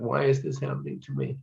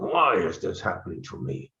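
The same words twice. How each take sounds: First: It sounds self-pitying. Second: It sounds angry.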